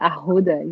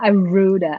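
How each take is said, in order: First: The middle consonant is an h sound. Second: The middle consonant is an r sound. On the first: The speaker calls it right. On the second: The speaker calls it wrong.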